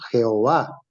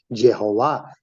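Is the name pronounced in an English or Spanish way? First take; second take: Spanish; English. First: The name is said with Spanish sounds. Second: The name is said with English sounds. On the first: This is how Spanish speakers say it. "para nosotros" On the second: This is how English speakers say it. "para los gringos"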